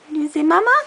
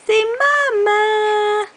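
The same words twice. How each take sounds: First: Short "Mama" rising at the end; questioning MAMA. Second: High "Mama" with both syllables stretched; drawn-out coaxing MAMA. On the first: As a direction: ask "Mama" as a quick hopeful question. Parent asking baby to say it. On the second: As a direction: model "Mama" slowly for a baby, high and long. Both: Shown as a demonstration.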